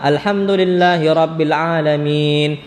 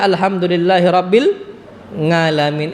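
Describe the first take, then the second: First: The last word begins with a plain vowel. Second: The last word begins with an 'ng' sound.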